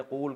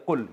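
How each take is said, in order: First: قول with a long oo, qool; long vowel. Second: قل said short as qul; short single-beat qul for قل; short vowel. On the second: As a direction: clip the vowel of قل to a brief u. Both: Shown as a demonstration. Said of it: "قول کو بنا دیا قل".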